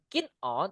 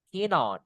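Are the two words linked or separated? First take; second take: separated; linked. First: The two words are said separately. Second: The final n links into the vowel. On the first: The speaker calls it wrong. "bukan keen on" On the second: The speaker calls it right. "tapi keen on. Biar smooth"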